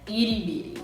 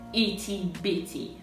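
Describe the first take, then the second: First: It has an American accent with a D-like T. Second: It has a British accent with a crisp T.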